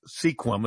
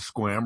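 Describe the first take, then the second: First: The name is said the way outsiders say it. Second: The name is said the way locals say it. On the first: The speaker is from somewhere else. The speaker calls it wrong. "When he says Sequim instead of Squim" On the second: The speaker is from the area. The speaker calls it right. "instead of Squim"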